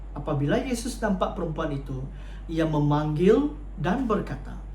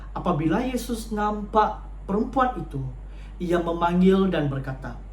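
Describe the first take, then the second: The two takes are said the same way.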